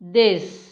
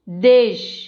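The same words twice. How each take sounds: First: The word ends with an s sound. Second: The word ends with a sh sound. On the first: The speaker calls it wrong. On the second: The speaker calls it right.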